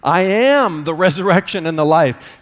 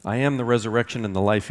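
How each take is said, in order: First: "am" punched hard and loud; stress on AM. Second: Said in the usual way. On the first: Shown as a demonstration. Pastor quoting Jesus to his church, stressing "am". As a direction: lean on "am" as a present fact. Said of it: "Jesus didn't say". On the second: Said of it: "he says".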